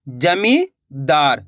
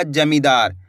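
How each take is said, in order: First: जमींदार as जमीं, long pause, दार; split in chunks. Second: Said in the usual way. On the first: Shown as a demonstration. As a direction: break जमींदार into two slow pieces. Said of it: "दो-दो करके आपको पढ़ा देता". (जमींदार, जमीं के बाद रुककर) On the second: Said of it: "तो मिलके बन जाएगा".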